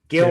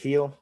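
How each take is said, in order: First: The name starts with a hard G sound. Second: The name starts with an H sound. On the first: This is how most people were saying it. The speaker calls it wrong. "Gill was what everyone was pronouncing it" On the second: This is how the name is really said. The speaker calls it right. "you pronounce it Heel"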